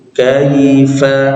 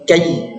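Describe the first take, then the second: First: The y sound is soft and level. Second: The y sound is heavy and rushed. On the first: The speaker calls it right. "bacanya datar" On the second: The speaker calls it wrong. "seolah ya-nya berat"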